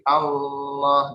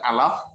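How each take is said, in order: First: The L sound is held and doubled. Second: The L sound is short, not held. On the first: The speaker calls it right. "tapi Allah ditahan" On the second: The speaker calls it wrong. "bukan Allah"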